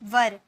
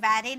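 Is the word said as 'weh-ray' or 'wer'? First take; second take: wer; weh-ray. First: The word is said like 'wer'. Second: The word is said like 'weh-ray'. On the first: The speaker calls it right. "लेकिन वैरे नहीं, वर" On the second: The speaker calls it wrong. "बहुत सारे विद्यार्थी से वैरे बोलते हैं"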